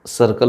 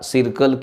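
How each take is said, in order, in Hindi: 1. पहला स्वर सामान्य 'uh' जैसा बोला जाता है। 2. पहला स्वर छोटे 'ee' जैसा बोला जाता है। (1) "इथं स सर्कल होईल" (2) "सिरकल किंवा किरकल म्हटलं जात नाही"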